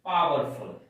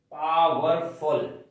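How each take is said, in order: First: Said in the usual way. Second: powerful said slowly, each syllable clear; syllable demo. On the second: Shown as a demonstration. (Powerful को धीरे-धीरे बोलकर) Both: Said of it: "इसमें दो syllables हैं".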